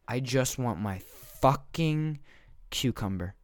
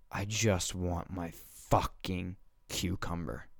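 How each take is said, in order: First: Pauses round FUCKING, pitched up high on it; emphatic exasperated plea. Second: Slow, weary, measured exasperation; exasperated plea. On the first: Shopper repeats plea to neighbor, exasperated, word by word. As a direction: break before and after "fucking", hitting it higher, then drop on "cucumber". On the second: Shopper begs neighbor to let him shop, slow and fed up. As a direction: drag it out, holding back irritation. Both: Acted.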